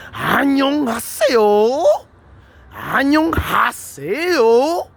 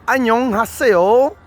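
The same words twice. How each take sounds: First: Annyeonghaseyo drawn out very slowly, pitched higher, with a swooping rise; played-with intonation. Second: Annyeonghaseyo said slowly, with a rising end; a plain, even Korean hello, Annyeonghaseyo, rising at the end; regular intonation. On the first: Showing viewers how the tune can change Annyeonghaseyo, a slow high swoop. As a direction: stretch each Annyeonghaseyo, sing it up high. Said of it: "Now you can play around with that". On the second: Showing viewers the standard greeting, Annyeonghaseyo, slow and rising. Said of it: "That is the regular intonation".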